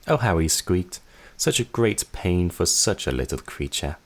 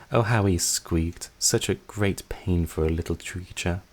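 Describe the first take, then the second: First: Quicker taunting take; tossed off at normal speed; mocking sister, normal pace. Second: Slow, relishing, cruel sister; gloating slowly. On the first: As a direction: sister retells it plainly. Same line again, normal pace. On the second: Acted. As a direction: savor every word of the memory.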